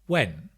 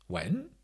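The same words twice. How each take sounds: First: The pitch falls on the word. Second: The pitch rises on the word. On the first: "Or a falling tone" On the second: "If it's a rising tone"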